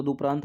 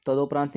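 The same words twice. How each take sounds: First: तदुपरांत said with a u sound after द; तदुपरांत, the d-u form; correct spelling. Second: तदोपरांत said with an o sound after द; तदोपरांत, the d-o form; wrong spelling. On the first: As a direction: give तदुपरांत as the right form. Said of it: "तदुपरांत होता है". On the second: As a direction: show तदोपरांत as the mistake. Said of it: "तदोपरांत नहीं होता". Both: Shown as a demonstration.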